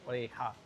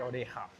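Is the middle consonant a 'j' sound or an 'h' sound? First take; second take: h sound; h sound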